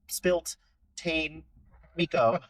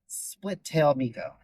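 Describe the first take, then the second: First: The sounds are jumbled, like 'spilt tane'. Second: The sounds are clear, like 'split tail'. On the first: The speaker calls it wrong. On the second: The speaker calls it right.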